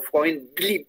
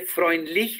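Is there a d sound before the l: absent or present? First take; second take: present; absent. First: A d sound is heard before the l. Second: No d sound is heard before the l. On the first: The speaker calls it right. "tienes que meter una D antes de la L" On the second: The speaker calls it wrong. "no se dice freundlich"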